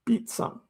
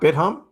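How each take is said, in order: First: The name sounds like 'beat-sum'. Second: The name sounds like 'bit-hum'. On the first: The speaker calls it right. "It's a Korean pronunciation" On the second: The speaker calls it wrong. "It's not BitHum"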